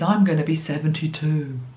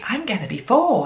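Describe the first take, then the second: First: It sounds heavy and gloomy. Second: It sounds light and cheerful.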